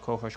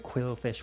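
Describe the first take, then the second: First: It is articulated loosely at the front of the mouth. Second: It is articulated fully with careful enunciation. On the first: "if you're just doing it in like the front of the mouth" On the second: "You have to go"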